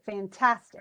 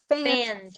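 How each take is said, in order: First: The stress is not on the first syllable. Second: The stress is on the first syllable. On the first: The speaker calls it right. "Or is it fantastic?" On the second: The speaker calls it wrong. "read it out as if it's the stress"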